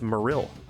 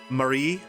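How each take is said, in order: First: The name ends with a clear L sound. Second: The name ends with a Y-like sound. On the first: "It's actually pronounced Marill" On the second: "It's actually Spanish, so the L is Y"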